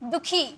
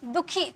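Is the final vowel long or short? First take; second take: short; short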